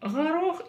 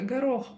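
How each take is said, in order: First: The g is a throaty fricative sound. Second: The g is a hard stop sound. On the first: "искажают букву «г»" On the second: "вместо горох"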